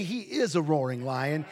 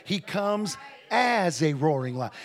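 First: Emphasis on the word IS; stress on IS. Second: AS drawn out, set off by a pause; slow, weighty emphasis on AS; stress on AS. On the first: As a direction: lean on "is" as the disputed word. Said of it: "it doesn't say". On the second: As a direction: hit "as" to correct the reading. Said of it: "it doesn't say he is". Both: Shown as a demonstration.

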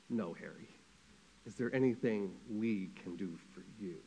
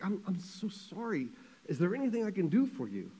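First: Low, soft and grave; acted quiet, steady consoling voice; Eleanor Roosevelt. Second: Higher, softly pleading mock tearful voice; lightly acted crying sympathy; tearful consoling. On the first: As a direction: gently turn the offer of comfort back. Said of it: "Eleanor Roosevelt takes her big banana bunch hand". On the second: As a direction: act choked up, offering comfort. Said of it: "Harry Truman starts crying and".

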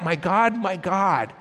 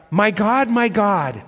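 First: Said in the usual way. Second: Loud anguished cry, pitched higher. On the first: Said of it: "He cried out". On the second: Acted. Jesus on the cross crying out to God, loud anguish. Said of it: "the intensity, the passion".

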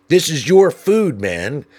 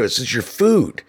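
First: "your" pushed higher and louder, slow; insistent. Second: Lightly sweet "This is your food"; mock helpful. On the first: Retold or imitated. Narrator insisting the litterer take his trash, emphatic. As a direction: press "your" hard with syrupy insistence. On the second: Narrator returning the trash to the litterer, fake-helpful. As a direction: offer it back like a kindness. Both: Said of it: "trying to be as helpful as possible".

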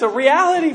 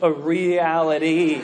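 First: Said in the usual way. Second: REALITY stretched out slowly, low; oddly drawn-out word. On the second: Real, not acted. Preacher turning from laughter to seriousness, REALITY oddly elongated. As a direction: draw out REALITY syllable by syllable. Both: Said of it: "I don't know why I said it like that".

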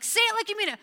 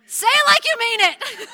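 First: High, loud insistence; exasperated parent. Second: High, loud, half-laughing demand; exasperated parent. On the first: Parent repeating the demand to the child, high and loud. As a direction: demand it again, louder and higher. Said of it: "and like". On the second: Parent demanding a sincere apology, loud and high with a laugh. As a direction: push it up like a parent at the end of their rope. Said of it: "And then we're like". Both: Retold or imitated.

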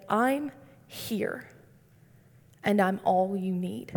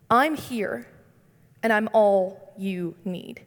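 First: Hushed and gentle, barely above a breath; soft whisper. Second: Said in the usual way. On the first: Retold or imitated. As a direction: say "I'm here" softly, as if God whispers it close. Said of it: "God whispered to me and said". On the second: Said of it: "he says".

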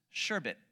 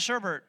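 First: Sherbet said "SHER-bit"; correct pronunciation. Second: Sherbet said "SHER-bert"; wrong pronunciation. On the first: Preacher teaching the correct word, sherbet as "SHER-bit". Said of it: "the way you say it is". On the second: Preacher rejecting the extra R, sherbet as "SHER-bert". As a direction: sherbet with an R in both syllables. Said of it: "There's no R at the end". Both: Shown as a demonstration.

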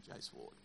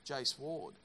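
First: A breathless whispered repeat of "Jace Ward"; whispered aside. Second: Said in the usual way. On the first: Real, not acted. Pastor whispers a colleague's name as a sermon aside. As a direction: whisper "Jace Ward" under your breath, like a private joke.

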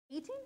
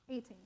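First: "Eighteen" rising like a question; questioning check. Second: "Eighteen" falling, settled; confirming answer. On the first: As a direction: check the year, "Eighteen" lifted at the end. Checking the year she gave. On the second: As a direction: confirm the year, "Eighteen" dropped at the end. Confirming the year to herself. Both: Real, not acted.

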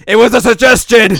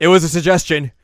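First: Very loud, high-pitched mock yell; screamed protest. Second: Raised, higher indignant voice; loud protest. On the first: Azusa snapping at Mio over tea, screaming. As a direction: explode in hammed-up indignation. Acted outburst repeated much louder. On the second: Retold or imitated. Azusa defending the tea idea, indignant. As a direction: blurt it out defensively. Acted outburst, first take.

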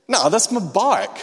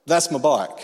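First: High, loud and slow, leaning on no; indignant insistence. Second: Firm claim. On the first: Refusing the thief's offer, a loud, slow, indignant no. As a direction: refuse to back down, stubborn and loud. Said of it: "I wasn't feeling the anointing". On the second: Confronting thief over his bike. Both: Retold or imitated.

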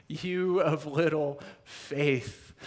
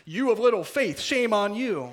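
First: Said in the usual way. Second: "You of little faith" higher and louder, a mock scold; hammed-up scolding Jesus, higher and louder. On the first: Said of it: "I always read that and went". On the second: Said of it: "The scolding".

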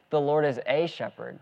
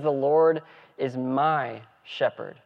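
First: Said in the usual way. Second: "my" leaned on, said slowly; slow down and press "my"; preacher insisting the Lord is "my" shepherd, slow and stressed. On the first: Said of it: "he doesn't just say". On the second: Shown as a demonstration. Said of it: "He says".

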